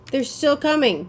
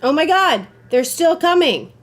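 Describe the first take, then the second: First: Said in the usual way. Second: Loud, high alarmed yell; panicked shout. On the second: Real, not acted. Player fleeing enemies, shouting in panic. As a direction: yell as they close in. Enemies still chasing him.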